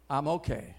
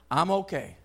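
First: I'm okay said lower and quieter, to himself; a quiet, resigned I'm okay; softer, settled echo. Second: Said in the usual way. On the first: Real, not acted. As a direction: let the second I'm okay settle down softly. Preacher repeats reassurance.

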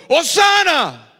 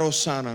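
First: Slow, loud, high cry of hosana; crowd shouting. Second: Said in the usual way. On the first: Retold or imitated. Preacher contrasting the shout with the bare word, loud cry. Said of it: "habían gritado". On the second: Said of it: "Gritar "Hosana" no es suficiente".

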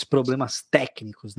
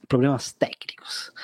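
First: Said in the usual way. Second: Joking stage whisper. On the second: Shown as a demonstration. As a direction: whisper it like a secret. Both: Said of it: "Assim que a gente fala".

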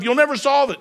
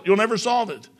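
First: "never" hit higher and harder; preacher punching "never"; stress on never. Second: "solve" carries the weight, "never" eased off; stress on solve. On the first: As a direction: lean into "never" as a warning. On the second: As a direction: land the repeat on "solve". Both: Shown as a demonstration.

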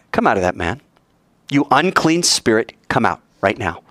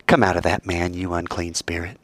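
First: Firm command at normal volume; steady, unyielding rebuke; firm, no wimp. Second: Low, soft and unhurried; hushed, low authority; quiet command, not screaming. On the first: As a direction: order it out without shouting, but mean it. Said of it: "he didn't sound like a wimp". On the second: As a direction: order it out under your breath. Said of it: "not screaming". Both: Acted.

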